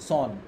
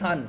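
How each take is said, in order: First: The vowel is a rounded 'o' sound. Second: The vowel is an open unrounded 'a' sound. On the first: The speaker calls it wrong. "বলি সন" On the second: The speaker calls it right. "S O N সানকে"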